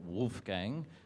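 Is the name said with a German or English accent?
English. It is said with an English accent.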